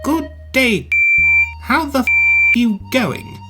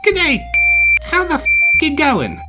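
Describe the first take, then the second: First: High, stiff British enunciation; uptight British. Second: High, loud imitation Australian; sounding like an Aussie. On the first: Acted. British engine copies an Aussie greeting, uptight British. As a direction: sound each word separately, very British. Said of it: "You Poms are so uptight". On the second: Small engine tries again, casual imitation Australian. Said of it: "Now you're sounding like an Aussie".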